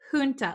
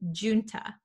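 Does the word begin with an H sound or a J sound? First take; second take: H sound; J sound. First: The word begins with an English H sound. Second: The word begins with an English J sound. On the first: This is the American pronunciation. "like an H sound, like an English H" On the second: This is the British pronunciation. "in the UK, I think they pronounce it as junta"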